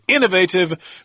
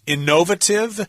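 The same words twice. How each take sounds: First: The stress is on the first syllable. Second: The stress is not on the first syllable. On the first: This is how Americans say it. "with the accent on the first syllable" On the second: This is how British speakers say it. "that's probably the British pronunciation"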